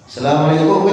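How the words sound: It is short and forceful, Arab style.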